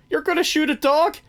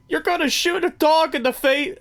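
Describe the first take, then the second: First: Corrected quote, still squeaky and much higher; high mock villain asking in disbelief; imitating Jack Horner. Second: High squeaky mock villain voice, pitched way up; gleeful movie villain lines, much higher; imitating Jack Horner. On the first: Fixing the misquote for the co-host, high mock voice. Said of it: "or, sorry". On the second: Quoting the movie villain to a co-host, high mock voice. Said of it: "every moment with him is golden".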